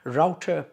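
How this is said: The word is said in an American pronunciation. "in the U S A and other parts of the country, they call it router"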